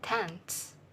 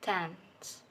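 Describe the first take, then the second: First: Said fast with a t before the s. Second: Said slowly with no t before the s. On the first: "there is an addition of sound ta between uh, phonemes n and uh, na and sa" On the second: "In slow pronunciation, this word is pronounced dance"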